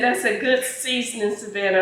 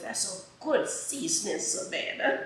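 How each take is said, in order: First: It is read in her plain voice. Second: It is read in a put-on mama voice.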